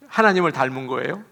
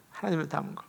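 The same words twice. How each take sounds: First: Said in the usual way. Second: 하나님을 닮은 거 repeated much softer, almost to herself; soft echo. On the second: Shown as a demonstration. Pastor echoing her own point softly to the congregation. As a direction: let the repeat fall away into a murmur. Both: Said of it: "repeats the phrase quietly".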